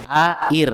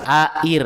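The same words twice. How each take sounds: No difference in how they are said.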